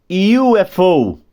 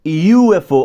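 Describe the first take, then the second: First: U F O spelled slowly, U as yu; spelled UFO. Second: U F O spelled a bit louder, U as yu; spelled UFO. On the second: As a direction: repeat U F O, pointing out the U. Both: Shown as a demonstration. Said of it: "Olha o som do U".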